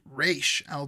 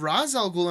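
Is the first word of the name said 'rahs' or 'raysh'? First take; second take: raysh; rahs. First: The first word sounds like 'raysh'. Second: The first word sounds like 'rahs'. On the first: This is the original pronunciation of the name. "the correct pronunciation is Raish al Ghul" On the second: This is how the films say it. "In the films, they call him Ra's al Ghul"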